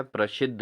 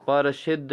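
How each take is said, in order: First: प्रसिद्ध with joined "pra"; correct pronunciation. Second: प्रसिद्ध said as "para-shiddh"; wrong pronunciation. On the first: Teacher gives students the answer, प्रसिद्ध with tight pr. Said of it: "क्या है?". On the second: Teacher shows students the error, प्रसिद्ध as "parashiddh". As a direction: split the pr of प्रसिद्ध with a vowel. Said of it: "नहीं होता दोस्तों". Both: Shown as a demonstration.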